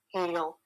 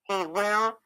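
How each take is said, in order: First: The words merge into one short syllable. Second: Both words are said in full, separately. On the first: "you're going to say it in contractions" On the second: "I will always say"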